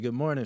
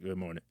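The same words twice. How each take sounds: First: It is said in a cheerful, friendly tone. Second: It is said in a grudging, reluctant tone.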